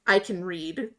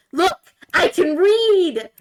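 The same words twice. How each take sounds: First: Said in the usual way. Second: "read" held long and high, slow and loud; excited. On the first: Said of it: "literally just shows him". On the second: Retold or imitated. Frog showing off it can read, "read" drawn out high. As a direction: stretch out "read" with delight. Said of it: "really excited frog".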